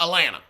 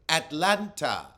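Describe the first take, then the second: First: The middle T sound is dropped. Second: The middle T sound is clearly pronounced. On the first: The speaker calls it wrong. "Not Atlanta" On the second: The speaker calls it right. "there's a T in there"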